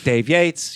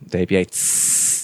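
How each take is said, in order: First: The name is said short and clipped. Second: The final s is stretched into a hiss. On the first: "It's very truncated" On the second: "you can make a little snake at the end of yours"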